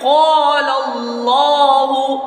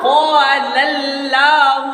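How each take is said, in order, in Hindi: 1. क़ाफ़ की आवाज़ भारी और भरी हुई है। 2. क़ाफ़ की आवाज़ पतली और हल्की है। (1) "कौफ को भी पूर पढ़ना ... सही क्या है" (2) "गलत"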